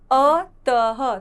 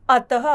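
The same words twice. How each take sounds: First: अतः stretched very slowly, ह drawn out; slow demo. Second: अतः said loud, a breathy ह at the end; clear demo. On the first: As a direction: draw out each sound of अतः. (अतः बहुत धीरे खींचकर) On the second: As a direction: announce the word for repeating. (अतः ज़ोर से) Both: Shown as a demonstration. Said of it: "त के साथ अह की मात्रा अतः".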